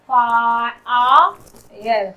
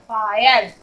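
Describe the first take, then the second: First: Very slow, low फायर as "faa, aa, yar"; broken into sounds. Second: Said in the usual way. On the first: Shown as a demonstration. Teacher showing the I sound, फायर slowly broken up. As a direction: pull फायर apart sound by sound. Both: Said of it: "आई का sound आई के रूप में".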